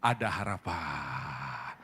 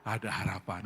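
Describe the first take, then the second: First: Hopeful whisper to neighbour. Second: Said in the usual way. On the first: Shown as a demonstration. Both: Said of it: "Jadi bilang kiri kanan".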